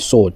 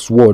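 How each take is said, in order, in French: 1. Le W est muet dans ce mot. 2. Le W se prononce dans ce mot. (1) "on dit sword" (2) "on dit pas sword"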